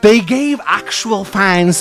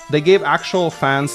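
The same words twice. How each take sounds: First: It is read in a put-on British accent. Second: It is read in the speaker's usual accent.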